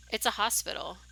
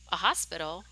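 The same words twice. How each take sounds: First: HOSPITAL stated as a plain finding; matter-of-fact statement. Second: HOSPITAL echoed with a rising question tune. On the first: Friend reading the map to the narrator, matter-of-fact statement. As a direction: state "hospital" as an answer, no question. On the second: Narrator echoing friend's map finding, questioning echo. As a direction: lift "hospital" into a puzzled question. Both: Acted.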